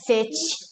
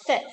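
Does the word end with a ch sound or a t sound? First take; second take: ch sound; t sound. First: The word ends with a ch sound. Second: The word ends with a plain t sound. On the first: The speaker calls it wrong. "one of the most common mistakes that I hear is to make that ch sound" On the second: The speaker calls it right. "it's actually just F I T"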